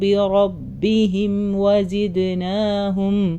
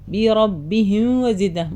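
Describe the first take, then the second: First: The m is held clearly before the next word. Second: The m is rushed and blended into the next word. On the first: The speaker calls it right. "ഓരോ സുക്കൂൻ്റെ അടുത്തും പിടിച്ച് നിർത്തുക" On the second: The speaker calls it wrong. "അങ്ങനെ പറയരുത്"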